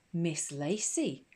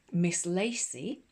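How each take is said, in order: First: Put-on "Miss Lacey" in a slow, flat sing-song of children; obedient chorus. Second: "Miss Lacey" slow, each word weighted, a bit louder; with emphasis. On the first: The class repeating the teacher's name obediently, "Miss Lacey" slow sing-song. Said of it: "chorused the class obediently". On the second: Headmistress drilling the new name into the class, "Miss Lacey" slow and emphatic. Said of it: "repeated Miss Enderby with emphasis". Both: A narrator's reading.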